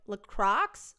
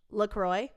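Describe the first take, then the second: First: "LaCroix" ending like "crocks", as a question; second pronunciation attempt. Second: "LaCroix" ending in "-croy", as a question; pronunciation attempt. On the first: Trying out a drink name, "LaCroix" with a sounded x. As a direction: try "LaCroix" as "luh-KROCKS", rising. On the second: Trying out a drink name, "LaCroix" rhyming with boy. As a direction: try "LaCroix" as "luh-KROY", rising. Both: Shown as a demonstration. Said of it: "Lac-, okay".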